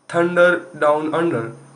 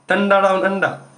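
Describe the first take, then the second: First: The final R sounds are clearly pronounced. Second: The final R sounds are dropped. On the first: "American like completely pronunciate an R" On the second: "when it comes to Aussie"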